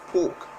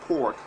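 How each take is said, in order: First: It is said in a non-American accent. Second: It is said in an American accent.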